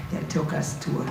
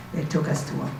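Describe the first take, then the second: No difference in how they are said.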